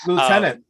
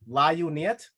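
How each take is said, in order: First: The word is said in its usual spoken form. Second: The word is sounded out from its spelling. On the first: The speaker calls it right. "not spelled anywhere close to how it's read" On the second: The speaker calls it wrong. "if I would have read that first, it would have been"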